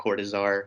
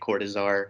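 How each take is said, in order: First: The name is said in a relaxed, anglicized way. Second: The same.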